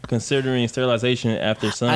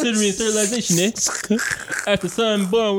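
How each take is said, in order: First: It is read in the speaker's usual accent. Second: It is read in a put-on British accent.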